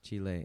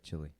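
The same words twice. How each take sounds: First: It is said like Spanish, chee-leh. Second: It is said like English chili. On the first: This is how the country's own people say it. "why is it pronounced Chile" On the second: This is how everyone in Texas says it. "instead of Chile"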